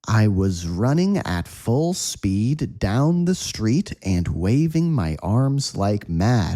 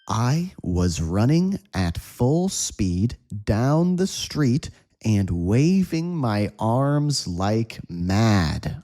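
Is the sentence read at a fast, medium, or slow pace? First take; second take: medium; slow. First: The sentence is read at a medium pace. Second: The sentence is read at a slow pace. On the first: "Again, at a medium speed" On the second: "Slow read, say with me"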